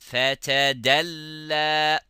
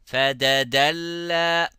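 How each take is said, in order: First: A t sound is followed by a d sound. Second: Both middle consonants are d sounds. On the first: The speaker calls it right. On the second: The speaker calls it wrong.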